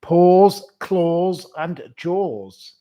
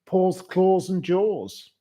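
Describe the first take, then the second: First: PAWS called out loud and high, then Claws and Jaws dragged out very slowly; repeating the name slowly for the puzzled co-host. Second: Slow and higher, each word set apart; name read slowly so the host can follow; slow, spelled-out name. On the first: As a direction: shout "Paws" and stretch the rest for someone who missed it. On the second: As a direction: read the odd name out carefully. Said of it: "Paws, Claws and Jaws wants to give". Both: Shown as a demonstration.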